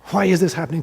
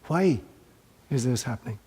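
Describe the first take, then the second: First: It sounds angry and resentful. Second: It sounds curious and open. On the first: The speaker resents their fate. "like why the hell? ... I'm railing against my fate" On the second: The speaker seeks a lesson in it. "I'm looking for what is the lesson here"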